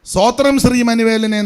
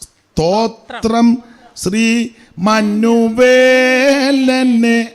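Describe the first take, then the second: First: The consonants are blurred and carelessly pronounced. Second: The consonants are pronounced crisply and distinctly. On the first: The speaker calls it wrong. "എന്നല്ല" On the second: The speaker calls it right. "ഉച്ചാരണ ശുദ്ധി"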